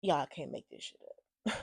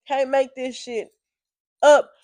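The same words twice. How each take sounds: First: Low, soft, deflated; subdued disbelief. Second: Slow, with UP punched higher and loud; emphatic disbelief. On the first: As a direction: mutter it in quiet disbelief. Disbelief, first take, subdued. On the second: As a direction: stretch it out, then hit "up" hard. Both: Real, not acted.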